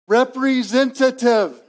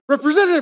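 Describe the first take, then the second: First: The word is said slowly and loudly. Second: The word is said quickly, over and over. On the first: The caller hopes the machine will understand. "you like pronounce it differently. Like, "I'm going to say it louder and slower" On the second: The caller has become impatient. "you say it faster and more"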